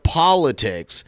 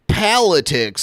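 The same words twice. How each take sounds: First: The first vowel is an O sound. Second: The first vowel is an A sound. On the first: It is the usual pronunciation. The speaker calls it right. "instead of politics" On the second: It imitates someone mispronouncing the word. The speaker calls it wrong. "he'll say politics"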